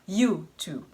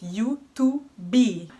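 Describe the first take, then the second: First: The stress is on the first syllable. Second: The stress is on the last syllable. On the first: "se estressa mais a primeira sílaba" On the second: "em português é mais YouTube"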